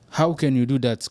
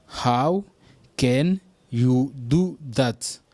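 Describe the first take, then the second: First: Said in the usual way. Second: How set apart, then drawn out; slow teaching model; very slow, broken up. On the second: Shown as a demonstration. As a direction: stretch every word for learners.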